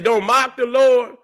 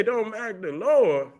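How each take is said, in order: First: Said in the usual way. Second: Soft, slow reading of a viewer comment; quiet mocking quote. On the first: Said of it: "you say". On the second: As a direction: murmur it back slowly, a little mocking. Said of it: "You say".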